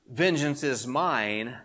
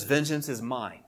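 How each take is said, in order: First: "Vengeance is mine" drawn out slowly, rising at the end as if more follows; misquote left hanging. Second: "Vengeance is mine" said slowly with a falling, closed ending; final, full stop. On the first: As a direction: leave "Vengeance is mine" open-ended, slow, with a lift on the last word. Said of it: "does not say". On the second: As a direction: land "Vengeance is mine" as the last word on it, dropping at the end. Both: Shown as a demonstration.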